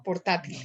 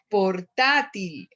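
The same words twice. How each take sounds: First: Said in the usual way. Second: PORTÁTIL slow, with TÁ drawn out; stressed syllable. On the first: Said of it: "la palabra portátil". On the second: Shown as a demonstration. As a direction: lean on TÁ in "Portátil", stretching it. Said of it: "tener el acento sobre".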